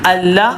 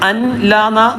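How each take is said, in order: First: The n merges fully into a doubled l. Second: The n is pronounced separately before the l. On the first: The speaker calls it right. "ലാമോ റാ വന്നാൽ അവിടെ ഇങ്ങനെയാണ് വായിക്കുക" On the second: The speaker calls it wrong. "വായിക്കൂല"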